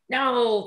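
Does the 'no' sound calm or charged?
charged. The word is said with a sharp, charged tone. It comes from judgment and blame. The speaker calls it wrong. "It doesn't have that charge of judgment and blame"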